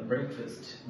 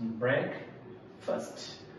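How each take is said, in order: First: Said in the usual way. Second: ব্রেকফাস্ট split slowly into two parts, break, fast; syllable-by-syllable pronunciation. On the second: Shown as a demonstration. Teacher showing learners the pronunciation, ব্রেকফাস্ট slowly in two parts. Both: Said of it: "উচ্চারণ শিখবো".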